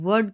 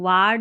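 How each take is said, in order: First: The vowel is a central 'er' sound. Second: The vowel is an open 'ar' sound. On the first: The speaker calls it right. "वर्ड करके पढ़ना है" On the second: The speaker calls it wrong. "इसको वार्ड नहीं पढ़ना है"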